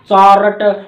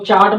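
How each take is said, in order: First: The r is sounded, with an extra vowel. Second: The r is silent, with no extra vowel. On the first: The speaker calls it wrong. "हम ठेठ हरियाणवी की तरह बोलते हैं" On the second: The speaker calls it right. "आर silent रहता है, तो चार्ट बोला जाता है"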